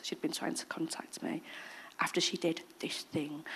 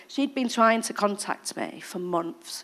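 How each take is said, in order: First: Soft whisper; quiet confidence; hushed aside. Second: Said in the usual way. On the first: Real, not acted. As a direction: drop to a whisper. Hushed aside about the woman.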